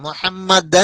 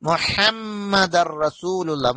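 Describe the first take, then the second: First: A clear n sound ends the word. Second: The final n merges into a doubled r. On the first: The speaker calls it wrong. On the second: The speaker calls it right.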